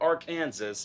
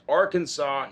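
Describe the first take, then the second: First: The word ends with a pronounced s sound. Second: The word ends in a vowel, final s silent. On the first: The speaker calls it wrong. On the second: The speaker calls it right. "it's pronounced"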